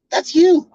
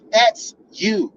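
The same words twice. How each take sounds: First: YOU hit higher and louder; stress on you. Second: THAT'S said falling; stressed that's. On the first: To partner, repeating the blame, stress on you. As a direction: land hard on the word you. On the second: To partner, pointing it back at her, stressed. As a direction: lean on the word That's. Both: Shown as a demonstration.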